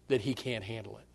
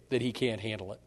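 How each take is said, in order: Both takes have the same delivery.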